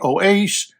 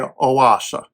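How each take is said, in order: First: The name is said with an English pronunciation. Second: The name is said with a German pronunciation. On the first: "So in English, it would be Oase" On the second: "In German, it would be Oasa"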